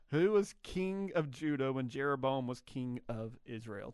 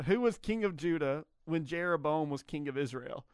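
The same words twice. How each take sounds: First: The question read again more slowly; slow down on the repeat so listeners catch it; slow reread. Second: Said in the usual way. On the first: Shown as a demonstration. Host rereads the trivia question.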